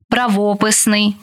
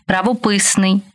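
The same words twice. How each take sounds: First: ПраВОписний, stressed on ВО; stress on second syllable. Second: ПравоПИсний, stressed on ПИ; stress on third syllable. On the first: Teacher showing variant stresses to student, stress on ВО in правописний. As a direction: hit ВО in правописний. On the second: Teacher showing variant stresses to student, stress on ПИ in правописний. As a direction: hit ПИ in правописний. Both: Shown as a demonstration. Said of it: "Такий наголос ще називають варіантним".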